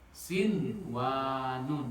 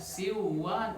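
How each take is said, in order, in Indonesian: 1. Bunyi n sebelum w dibaca dengan jelas. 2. Bunyi n sebelum w hilang. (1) "Jelas. Nun matinya dibaca jelas" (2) "nggak bisa dibaca Siwan, enggak"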